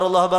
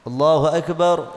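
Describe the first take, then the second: First: It is rushed, repeated straight on without pausing. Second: It is said calmly, followed by a short pause. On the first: The prayer skips the required moment of stillness. The speaker calls it wrong. "Yang tidak boleh" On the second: The prayer keeps the required moment of stillness. The speaker calls it right. "Yang penting tumak nina meskipun seben sebentar"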